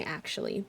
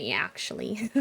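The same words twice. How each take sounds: First: Said in the usual way. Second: "actually" with a Midwestern y-glide, "yee-ackshully"; mock Midwestern "actually" starting like "yeah"; Midwestern accent. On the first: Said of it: "I just say". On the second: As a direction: imitate a hard Midwestern "actually", vowel raised and gliding. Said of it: "heard people say".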